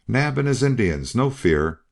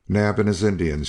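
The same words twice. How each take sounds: First: Much higher, urgent call; ringing shout. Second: Lightly raised call; mild shout. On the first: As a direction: reassure the armed crowd over the noise. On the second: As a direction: announce it to the crowd, not full force. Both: A narrator's reading. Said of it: "shouted Hare".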